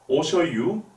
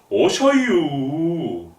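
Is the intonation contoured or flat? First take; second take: flat; contoured. First: It is said with flat, plain intonation. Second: It is said with slow, curving dialect intonation.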